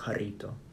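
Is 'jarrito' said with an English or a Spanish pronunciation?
Spanish. It is said with a Spanish-style pronunciation. The speaker calls it right. "if I can pronounce some shit correctly"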